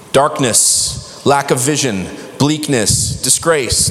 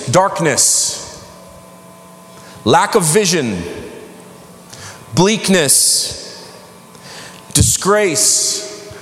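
First: "darkness", "lack of vision", "bleakness", "disgrace" in quicker succession, each falling; hitting words quickly. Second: Each item set apart by long pauses, pitched up then falling; hitting the words. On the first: Preacher repeating the list for listeners, hitting the words quickly. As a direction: run down the list word by word with short gaps. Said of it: "Should I hit the words again real quick".

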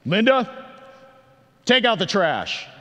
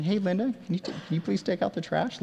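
First: Loud, high commanding order; barking general. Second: Gentle request. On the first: Pastor mocking his own bossy order to wife Linda. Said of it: "I feel like that general". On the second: Pastor showing how he means the request to Linda. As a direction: ask sweetly, as he means it inside. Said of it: "I'm saying". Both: Retold or imitated.

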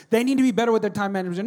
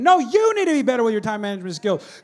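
First: Said in the usual way. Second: YOU punched high and loud; stress on YOU. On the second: Acted. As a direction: turn it back on them, hitting "you". Corrects they to you.

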